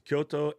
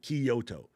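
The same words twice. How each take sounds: First: The word is said with two syllables. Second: The word is said with three syllables. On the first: The speaker calls it right. "It's Kyoto and Tokyo" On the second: The speaker calls it wrong. "turn both of those cities into three syllables hurts my face"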